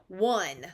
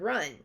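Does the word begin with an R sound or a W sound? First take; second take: W sound; R sound. First: The word begins with a W sound. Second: The word begins with an R sound. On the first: The speaker calls it wrong. "replace it with a, a W, and they may say one for run" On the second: The speaker calls it right. "say the word run"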